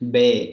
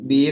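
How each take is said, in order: First: The letter ends with an 'ay' vowel. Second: The letter ends with an 'ee' vowel. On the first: This is the German letter name. "ബി നമ്മൾ പറയാ ബേ" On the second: This is the English letter name. "ബി നമ്മൾ പറയാ ബേ"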